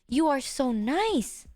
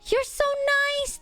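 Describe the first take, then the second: First: The voice is low, soft and slow. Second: The voice is energetic and hyped up. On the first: "lower down my voice and talk softer, like slower" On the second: "maybe I can try hype"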